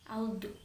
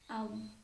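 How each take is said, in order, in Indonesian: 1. Konsonan akhir diakhiri dengan pantulan yang bergema. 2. Konsonan akhir diakhiri dengan halus tanpa pantulan. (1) "Tidak boleh dipantulkan seperti ini" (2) "cara melafalkan yang benar adalah aud, aud. Gitu, hanya digeser saja lidahnya"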